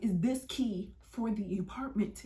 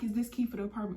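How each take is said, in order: First: Slow, deliberate questioning; imitated officer pressing slowly; pointed repeat. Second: Said in the usual way. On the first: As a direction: spell it out slowly, word by word.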